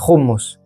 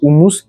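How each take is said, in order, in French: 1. Il est prononcé à la libanaise. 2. Il est prononcé à la française. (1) "on prononce pas le U, c'est hummus" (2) "En France, on dit le houmous"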